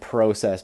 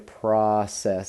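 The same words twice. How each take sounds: First: The word is said with a British vowel. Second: The word is said with an American vowel. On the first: The speaker calls it right. "I'm trying to speak more in the Queen's English" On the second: The speaker calls it wrong. "I don't know why we say process. That's just so lame"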